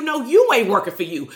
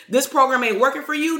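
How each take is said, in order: First: Firm correction with YOU punched; corrective stress on YOU. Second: Client's challenge, stress landing on "working"; questioning complaint. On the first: Real, not acted. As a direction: hit the first "you" hardest, then fall. Correcting the echoed complaint. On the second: Retold or imitated. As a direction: echo the complaint with WORKING most prominent.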